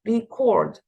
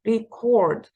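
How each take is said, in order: First: The stress is on the second syllable. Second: The same.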